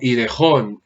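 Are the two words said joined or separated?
joined. The two words run together as one. The speaker calls it wrong. "si no quedaría como idejón"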